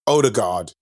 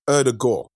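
First: The name is said with lazy English pronunciation. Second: The name is said with careful original pronunciation. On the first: This is how English speakers tend to say it. The speaker calls it wrong. "in England, they're going to say Ødegaard because like we're so lazy in the pronunciation" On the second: This is how the name is really pronounced. The speaker calls it right. "but it's Ødegaard"

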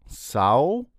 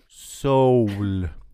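First: The word is said in an Australian accent. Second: The word is said without an Australian accent. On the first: "Let me see if I can do the Australian" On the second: "Oh, sorry"

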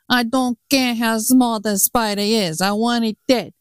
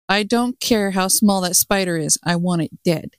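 First: It is said in an Italian accent. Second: It is said in a plain voice.

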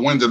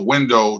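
First: The word ends with a reduced 'uh' sound. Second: The word ends with a full 'oh' sound. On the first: The word rhymes with 'into'. "now those two words that should have never rhymed rhyme perfectly" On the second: The word does not rhyme with 'into'. "as opposed to I was jumping out the window"

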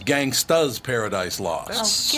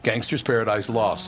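First: The first word ends with an 'uh' sound. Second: The first word ends with an 'r' sound. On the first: The speaker calls it right. "the correct answer was" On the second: The speaker calls it wrong. "is how he responded"

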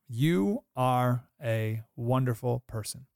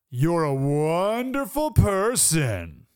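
First: The voice sounds warm and sincere. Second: The voice sounds mocking and sarcastic. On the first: The speaker means the compliment. "I could say the words" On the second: The speaker does not mean the compliment. "That's different"

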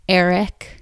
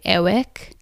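First: The middle consonant is a clear R sound. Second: The middle consonant is a W sound.

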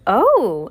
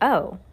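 First: It is said in an excited way. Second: It is said flatly, sounding disappointed.

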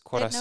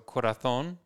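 First: The z is said as an 's' sound. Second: The z is said as a 'th' sound.

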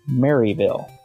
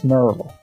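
First: The name is said fully, as it is spelled. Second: The name is said in a shortened, reduced form. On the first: The speaker is not from the area. The speaker calls it wrong. "most people, if they were coming into the area, would pronounce it Maryville" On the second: The speaker is from the area. The speaker calls it right. "If you pronounce it that way to the locals, they'll look at you like you're a dandy. Because it's Maryville"

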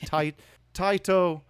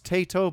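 First: The name is said in a Japanese way. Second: The name is said in an anglicized way. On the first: "but the Japanese would be" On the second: "maybe some people pronounce this"

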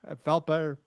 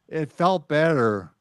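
First: It is said casually, without special emphasis. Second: It is said emphatically, with strong intent.

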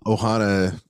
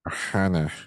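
First: It is said in his normal voice. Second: It is said in a put-on Stitch voice.

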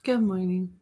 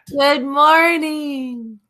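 First: It is said calmly, with little energy. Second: It is said with more excitement and energy.

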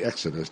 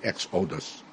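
First: It is pronounced the usual American English way. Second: It is pronounced the way Israelis say it. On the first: The speaker calls it wrong. "they do not say Exodus" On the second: The speaker calls it right. "They say Exodus"

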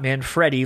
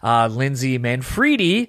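First: The name is said with an East Coast pronunciation. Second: The name is said with an Italian pronunciation. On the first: The speaker calls it wrong. "Not Manfredi, like I thought it was initially" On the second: The speaker calls it right. "It's Italian"

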